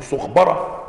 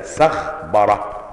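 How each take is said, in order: First: سخبرة misread as sukh-bara, with a "u" after the s; سخبرة with damma on the seen in place of fatha; mistaken vowel shown. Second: سخبرة said sakh-bara, with an "a" after the s; سخبرة with fatha on the seen, silent vowel on the kha; correct vowel shown. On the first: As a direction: say سخبرة wrongly, opening on "sukh". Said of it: "ممكن واحد يقول". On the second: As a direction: say سخبرة slowly, opening on "sakh". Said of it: "بفتح السين المهملة". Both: Shown as a demonstration.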